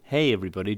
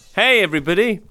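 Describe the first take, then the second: First: It is said quietly. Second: It is said loudly.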